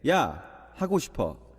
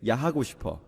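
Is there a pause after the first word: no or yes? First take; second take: yes; no. First: There is a pause after the first word. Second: The words run together without a pause. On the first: The speaker wants to talk casually instead of saying oppa. "if I wanted to be very wholesome" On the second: The speaker has a rated-R desire. "If I want to be a little less wholesome"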